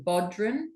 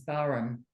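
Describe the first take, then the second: First: The word is said as spelled, with a d. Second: The word is said without any d sound. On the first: The speaker calls it wrong. "a lot of people call it the Bodhran because it's spelled like Bodhran" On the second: The speaker calls it right. "I think the correct pronunciation is Baran"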